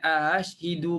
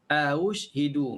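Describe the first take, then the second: First: The first syllable has a plain 'a' vowel only. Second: The first syllable carries a rounded 'u' vowel. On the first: The speaker calls it wrong. "bukan ashhidu" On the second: The speaker calls it right. "Aush, au dengan baris depan"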